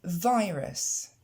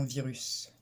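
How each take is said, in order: First: Virus as vaiʁas, ai vowel; Virus, English vai start. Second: Virus said French, viʀys, softer; imitating French virus. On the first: Shown as a demonstration. Teacher contrasts English Virus with French virus. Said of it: "Et non virus". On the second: Teacher shows learners' French virus. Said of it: "Et non".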